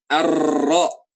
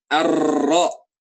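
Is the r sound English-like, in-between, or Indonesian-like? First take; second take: Indonesian-like; Indonesian-like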